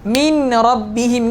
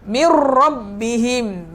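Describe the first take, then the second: First: The n sound is clearly heard before the r. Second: The n merges fully into the following r. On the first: "Sepatutnya huruf nun tu ada" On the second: "dah tak ada sebutan huruf nun"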